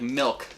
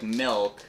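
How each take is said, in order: First: The final K is released very strongly. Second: The vowel is drawn out for too long. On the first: "they overpronounce the K" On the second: "they either spend too much time on the I"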